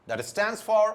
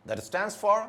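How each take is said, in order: Both takes have the same delivery.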